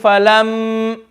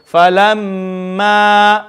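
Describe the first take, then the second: First: The word ends on a consonant. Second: The word ends on a long vowel. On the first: The speaker calls it wrong. "if we start saying falam, then we've gotten rid of the alif, which is not good" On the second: The speaker calls it right. "we are going to keep it as the same"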